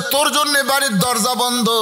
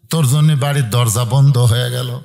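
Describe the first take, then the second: First: High-pitched preacher's version of an angry father; retold banishment, pitched high. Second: Low-pitched, falling pronouncement; father shutting his son out, pitched low; father's stern verdict. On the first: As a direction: declaim the father's anger in a high chant. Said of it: "বাবা রাগ করে বলেছে". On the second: Retold or imitated. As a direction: lay down the banishment in a low register. Father's first telling of banishment.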